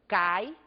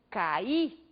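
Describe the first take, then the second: First: The i is said weakly, without stress. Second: The i is said with strong stress. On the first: "este mesmo I agora é pronunciado de uma forma menos intensa" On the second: "o I foi pronunciado com bastante intensidade"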